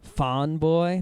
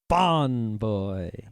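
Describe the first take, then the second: First: The name is said plainly, without extra emphasis. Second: The name is said with heavy, forceful emphasis. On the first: It sounds like some other word. The speaker calls it wrong. "if you just say Fawn Boy, that's not no, that's not him" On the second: This is the nickname used for him. The speaker calls it right. "With with a huge emphasis"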